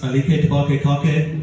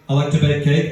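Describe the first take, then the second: First: The phrase is pronounced in an odd, distorted way. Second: The phrase is pronounced in the ordinary way. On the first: It imitates a celebrity's quirky pronunciation. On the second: It is the usual pronunciation.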